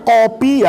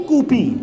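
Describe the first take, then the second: First: Said in the usual way. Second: "kupi" with "u" replacing the "o"; dialect "u" vowel. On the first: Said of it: "Ada orang yang bilang kopi ya kopi". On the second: Shown as a demonstration. Showing dialect differences to students, "kupi" said with a "u". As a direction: turn the first vowel of "kupi" into "oo". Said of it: "ada yang bilang kopi kupi".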